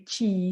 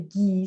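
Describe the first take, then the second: First: The syllable begins with a voiceless ch sound. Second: The syllable begins with a voiced g sound. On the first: This is another regional way of saying it. "some people are going to say chi" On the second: This is one regional way of saying it. "Some people are really going to say gi"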